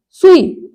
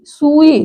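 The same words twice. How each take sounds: First: सुई higher, with quick su; short first vowel. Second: सुई with sū held; long first vowel. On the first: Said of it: "तो सुई हो जाएगा". (सुई में छोटा उ) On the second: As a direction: draw out sūū in सुई. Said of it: "बड़े ऊ की मात्रा". (सुई में लंबा ऊ) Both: Shown as a demonstration.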